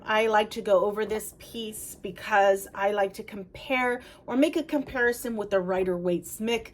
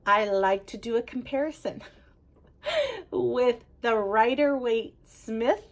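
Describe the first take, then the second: First: Rushed, words running together and slurring at the end; talking too fast. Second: Slow, careful redo with a little laugh midway. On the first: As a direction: hurry through it, tripping slightly. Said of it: "I'm trying to talk too fast". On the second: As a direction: take it slowly, separating each name. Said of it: "Let me slow it down". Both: Real, not acted.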